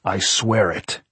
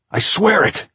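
First: Slow vow at normal pitch; slow earnest oath. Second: Very high, loud insistence; shouted oath. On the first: Sweating man promises the caretaker, slowly and earnestly. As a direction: swear it deliberately, drawing it out. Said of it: "Jack said". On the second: Locked-in man swears to the caretaker, shouting. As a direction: shout your oath desperately. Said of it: "Jack shouted". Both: A narrator's reading.

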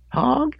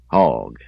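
First: Very high, loud questioning squeak. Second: Said in the usual way. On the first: A narrator's reading. Boy caught with a pig answers the owner, high voice. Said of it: "he said in a high voice".

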